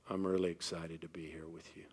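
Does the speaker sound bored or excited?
bored. The voice sounds flat and unenthusiastic. The words do not match the feeling. The speaker calls it wrong. "What? Huh? Those are great words"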